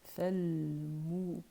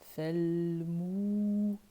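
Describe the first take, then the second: First: The vowel after the m is kept short. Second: The vowel after the m is held long. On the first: "le mime n'est pas prolongé" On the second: "le mime il est prolongé"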